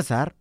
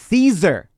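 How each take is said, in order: First: The name is said the Spanish way. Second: The name is said the English way.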